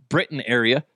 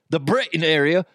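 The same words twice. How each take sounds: First: Said in the usual way. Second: Put-on a first light stab at a British accent; mock British accent. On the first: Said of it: "their accents". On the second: Host addressing listeners from Britain, mock British accent. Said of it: "trying to do their, their accents".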